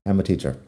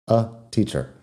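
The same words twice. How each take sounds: First: "I'm a teacher" rattled off with a reduced "a"; quick run-together. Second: "a" barely heard before "teacher"; weak a. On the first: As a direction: say "I'm a teacher" fast, "a" shrinks to a schwa. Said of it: "si lo digo rápido". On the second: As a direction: slide quickly over the "a" in "a teacher". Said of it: "apenas lo escuchas". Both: Shown as a demonstration.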